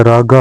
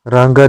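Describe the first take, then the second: First: रागा without a nasal; correct form. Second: रांगा with a nasal before g; wrong nasal. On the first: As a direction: say रागा as "raaga". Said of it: "होता है". (रागा बिना अनुस्वार) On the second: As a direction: say रांगा as "raanga". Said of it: "नहीं होता है". (रांगा में अनुस्वार) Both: Shown as a demonstration.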